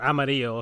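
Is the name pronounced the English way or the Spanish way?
Spanish. The name is said with a Spanish pronunciation.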